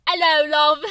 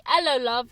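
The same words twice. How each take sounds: First: Louder put-on British hello; hammed-up British accent, loud; mock British accent. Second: Playful mock British greeting; a breezy put-on British hello; lightly faked British accent. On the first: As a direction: croon it in a thick fake British accent. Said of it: "you have". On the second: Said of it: "That's the only thing you can say".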